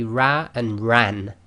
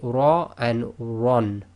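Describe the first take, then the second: First: The r is light, with a thin vowel. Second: The r is heavy, with a rounded vowel. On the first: The speaker calls it wrong. "You cannot say ra and ran" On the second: The speaker calls it right. "round mouth or full mouth"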